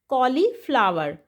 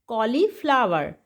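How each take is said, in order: The two takes are said the same way.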